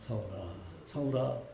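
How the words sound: It is called softly and tenderly.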